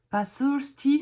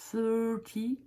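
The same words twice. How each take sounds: First: "thirsty" said louder and higher as the word to avoid; wrong thirsty. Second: "Thirty" said without the s sound; correct thirty. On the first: Teacher contrasts "thirsty" with thirty. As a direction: warn against "thirsty". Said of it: "ça veut dire avoir soif". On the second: Teacher gives students the right "Thirty". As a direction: give the clean "Thirty". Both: Shown as a demonstration.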